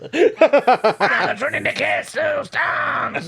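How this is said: It is said in a put-on French accent.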